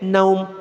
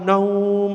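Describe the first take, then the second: First: The vowel is cut short. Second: The vowel is drawn out long. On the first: The speaker calls it wrong. "jangan pendek-pendek. Naum salah cara bacanya" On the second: The speaker calls it right. "Mau naumnya dipanjangkan"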